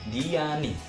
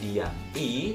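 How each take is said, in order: First: The final n links smoothly into the ending. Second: The name and ending are said as separate parts. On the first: The speaker calls it right. "tapi Diani" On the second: The speaker calls it wrong. "bukan Dian I"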